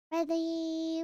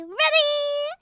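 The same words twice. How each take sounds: First: Said in the usual way. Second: Eager ready. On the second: Shown as a demonstration. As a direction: build up the excitement on the last ready. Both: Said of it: "Ready? Ready? Ready?".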